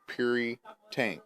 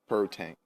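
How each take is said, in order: First: The first syllable sounds like 'pure'. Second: The first syllable does not sound like 'pure'. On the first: The speaker calls it right. "like pure" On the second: The speaker calls it wrong. "it's Purry Tank, and it's not"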